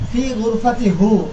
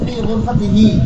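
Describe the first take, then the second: First: The final pronoun is said with a 'u' vowel. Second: The final pronoun is said with an 'i' vowel. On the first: The speaker calls it wrong. "এটা উচ্চারণও কষ্ট" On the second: The speaker calls it right. "উচ্চারণের সহজতার জন্য এখানে পরিবর্তন করা জায়েজ"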